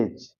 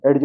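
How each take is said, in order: First: एज said as one syllable, "ej"; no separate d in एज; silent d. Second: एज said "ed-je"; d sounded separately. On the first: Teacher correcting learners, silent d in एज. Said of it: "एज पढ़ेंगे". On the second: Teacher showing the wrong reading, separate d in एज. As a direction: pull the d apart from the j in एज. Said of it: "एज नहीं एज". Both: Shown as a demonstration.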